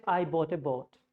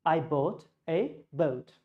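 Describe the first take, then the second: First: Boat with a plain O; flat boat. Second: Boat with a clear OU glide, slowly. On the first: Teacher showing the wrong boat. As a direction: say boat without the glide. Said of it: "if you don't know this sound". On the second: Teacher showing the right boat. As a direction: say boat gliding from O to U. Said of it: "you have to say". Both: Shown as a demonstration.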